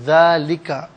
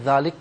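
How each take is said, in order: First: The word ends with a short vowel sound. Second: The word ends on a bare consonant sound. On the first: The reading continues without stopping. "अब इसे हम पढ़ेंगे नाज़रीन ज़ालिका" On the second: The reader stops at this point. "रुकने की सूरत में ज़ालिक पढ़ा जाएगा"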